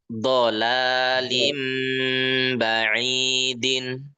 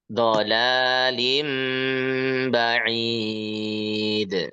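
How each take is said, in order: First: The phrase ends with a full -in sound. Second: The phrase stops short on the d. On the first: "Ba'idin, din" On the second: "kalau mau disukunkan bisa"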